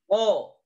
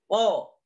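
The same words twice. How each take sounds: No difference in how they are said.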